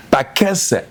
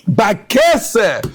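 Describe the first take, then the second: First: Said in the usual way. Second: Shouted keyword. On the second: Acted. Rabbi proclaiming the verse word to his class, shouted. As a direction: hurl the word Bakese at them.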